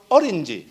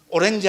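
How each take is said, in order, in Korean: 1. 강세는 첫 음절에 있습니다. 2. 강세는 첫 음절에 있지 않습니다. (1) "어떻게 합니까?" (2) "오렌지 하면 뭔가 모릅니다"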